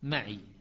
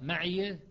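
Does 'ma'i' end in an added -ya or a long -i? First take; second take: long i; added ya. First: The word ends with a plain long -i. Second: The word ends with an added -ya sound. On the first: This is another reading tradition. "شعبة يقرأ معي" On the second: This is one reading tradition. "حفص يقرأ معي"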